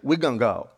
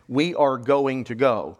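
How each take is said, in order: First: Syllables are skipped and run together quickly. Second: Every syllable is said clearly and in full. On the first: "you just skip over the syllables" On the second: "you don't say"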